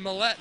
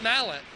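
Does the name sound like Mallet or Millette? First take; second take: Millette; Mallet. First: The name is said as Millette. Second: The name is said as Mallet. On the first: The speaker calls it right. "it is pronounced Millette" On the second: The speaker calls it wrong. "not Mallet"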